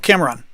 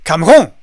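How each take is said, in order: First: The stress is on the first syllable. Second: The stress is on the second syllable. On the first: This is how the name is said in English. "I accent the first syllable" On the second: This is how the name would be said in French. "if it were like the French. ... Would be accenting the second syllable"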